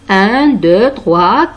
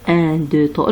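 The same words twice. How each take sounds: First: The numbers are counted loudly. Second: The numbers are counted quietly. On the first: The speaker calls it right. "À haute voix, c'est-à-dire plus fort, plus fort" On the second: The speaker calls it wrong. "ce n'est pas comme ça"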